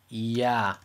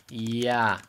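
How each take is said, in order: No difference in how they are said.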